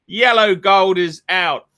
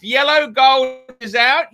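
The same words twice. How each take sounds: First: Said in the usual way. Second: Disbelieving question, lifted at the end; incredulous. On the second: Real, not acted. Host questioning the friends' claim, in angry disbelief. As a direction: throw the claim back as absurd.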